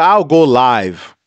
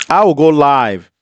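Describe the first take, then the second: First: Slow, heavy threat; threatening to expose her by going live, slow and heavy; slow deliberate threat. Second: Said in the usual way. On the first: Real, not acted. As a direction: spell out each word as a slow warning.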